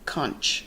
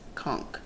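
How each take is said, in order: First: The word is pronounced the way it is spelled. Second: The word is pronounced differently from its spelling. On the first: The speaker calls it wrong. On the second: The speaker calls it right.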